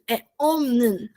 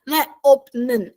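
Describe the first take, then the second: First: Omnen said slowly with an m; slow model omnen; omnen, p becomes m; correct reading. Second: Opnen with a hard p; wrong reading. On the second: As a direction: say opnen, p sounded. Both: Shown as a demonstration.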